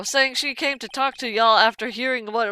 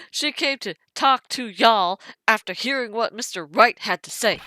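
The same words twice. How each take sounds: First: Said in the usual way. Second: Put-on lightly drawn southern US accent. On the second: Detective quoting a wild lady, in a southern accent. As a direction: quote her with a hint of southern twang. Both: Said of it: "she has a southern accent".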